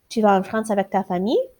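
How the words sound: It is said with question intonation. It asks a yes or no question. "just changing how you say it makes it a question"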